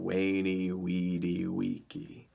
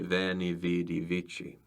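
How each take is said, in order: First: The words start with a W sound, C hard. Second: The words start with a V sound, C soft. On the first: This is how ancient speakers said it. "Classical Latin, the Romans would have said" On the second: This is how later church and academic speakers said it. "The V's are hard, the C's are soft"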